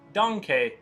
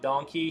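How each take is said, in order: First: It is said in an imitated character's accent. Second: It is said in an ordinary accent. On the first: "he would be like donkey" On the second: "not donkey"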